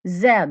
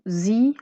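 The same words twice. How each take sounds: First: The letter is said the British way. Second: The letter is said the American way. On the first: "en Angleterre" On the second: "aux États-Unis"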